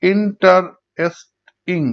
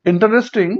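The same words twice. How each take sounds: First: interesting slowly in four separate beats; syllable by syllable. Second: Said in the usual way. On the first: Shown as a demonstration. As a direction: pause between in, tar, est, ing in interesting. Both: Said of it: "চার ভাগে ভাগ হচ্ছে".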